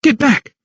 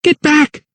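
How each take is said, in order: First: High-pitched cry at ordinary volume; urgent, high command; shouted warning. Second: Very high, desperate cry; shrieked urgent command; screamed warning. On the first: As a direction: drive an attacker off. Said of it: "shouted Lydia". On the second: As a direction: scream an attacker away, higher still in pitch. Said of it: "she screamed once more". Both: A narrator's reading.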